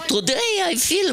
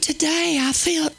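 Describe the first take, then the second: First: It is said in a Jewish accent. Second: It is said in an American Southern accent. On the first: The speaker calls it right. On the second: The speaker calls it wrong. "No, she didn't have a southern accent"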